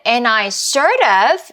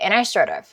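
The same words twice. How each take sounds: First: The phrase is said slowly and carefully. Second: The phrase is said very quickly and lightly. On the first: The speaker calls it wrong. "이렇게 소리 내지 않았고요" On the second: The speaker calls it right. "굉장히 빠르게"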